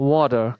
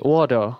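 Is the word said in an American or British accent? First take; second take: American; American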